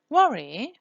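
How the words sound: The pitch falls then rises.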